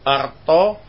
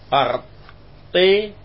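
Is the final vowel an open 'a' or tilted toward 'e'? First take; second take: open a; tilted e. First: The final vowel is an open a sound. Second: The final vowel is tilted toward e.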